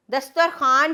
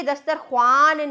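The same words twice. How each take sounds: First: दस्तरखान said as "dastar-khaan", no w; plain "khaan" ending in दस्तरखान, w left silent; silent vav. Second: दस्तरख्वान said as "dastar-khwaan", w sounded; vav wrongly sounded. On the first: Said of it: "दस्तरखान पढ़ेंगे". (दस्तरखान को "दस्तर-ख़ान" बोलें, व के बिना) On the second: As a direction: stretch "khwaan" in दस्तरख्वान, voicing the silent w. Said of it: "दस्तरख्वान नहीं पढ़ेंगे". (दस्तरख्वान में व को खींचकर "ख़्वान" बोलें) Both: Shown as a demonstration.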